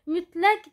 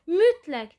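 First: The stress is on the second syllable. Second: The stress is on the first syllable. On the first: The word works as an adjective. "Mütləq deyirsə, onda olacaq sifət" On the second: The word works as an adverb. "Mütləq deyirsə, onda zərf olur"

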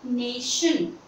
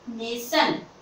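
First: The middle consonant is an 'sh' sound. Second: The middle consonant is not an 'sh' sound. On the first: The speaker calls it right. "correct word is नेशन" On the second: The speaker calls it wrong. "people mispronounce it, how, nation, they speak nation, so this is wrong"

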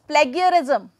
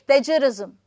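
First: It is said with a common learner pronunciation. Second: It is said with Received Pronunciation. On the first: The speaker calls it wrong. "many students will speak it as plagiarism" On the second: The speaker calls it right. "when it comes to the exact received pronunciation, that will be plagiarism"

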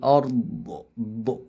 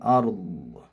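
First: The final consonant ends with an added bouncing echo. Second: The final consonant stops cleanly with no echo. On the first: The speaker calls it wrong. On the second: The speaker calls it right.

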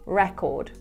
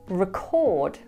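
First: The stress is on the first syllable. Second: The stress is on the second syllable. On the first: It is used as a noun. "In its noun form, we pronounce it record" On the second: It is used as a verb. "in its verb form, we pronounce it record"

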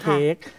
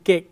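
First: The vowel is drawn out long. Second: The vowel is cut short. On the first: This is the local way of saying it. "เรามักจะลากเสียงยาวนะ" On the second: This is the foreign way of saying it. "แต่ของเขาเป็นเกะ"

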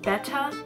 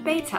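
First: The first syllable sounds like 'bet'. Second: The first syllable sounds like 'bay'. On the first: The speaker calls it right. "Apparently it's pronounced betta" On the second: The speaker calls it wrong. "but I've been saying betta"

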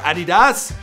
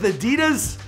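First: It uses the European pronunciation of the name. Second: It uses the North American pronunciation of the name.

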